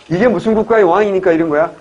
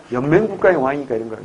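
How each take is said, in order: First: "무슨 국가" pushed out louder as a question; louder teacher's question on "무슨 국가"; quizzing question. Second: "연맹 국가" stated evenly as the answer; matter-of-fact teacher's answer on "연맹 국가"; settled answer. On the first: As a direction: quiz the class, leaning on "무슨 국가". Teacher asks, then answers it. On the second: Teacher answers own question. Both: Shown as a demonstration.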